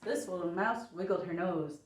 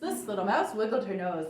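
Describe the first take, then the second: First: It is said at a faster pace. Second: It is said at a very fast pace.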